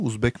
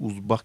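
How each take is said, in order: First: The word is pronounced the Russian way. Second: The word is pronounced the Tajik way. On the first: "ба забони русӣ ... узбек мегӯям" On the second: "ба забони тоҷикӣ узбак мегӯям"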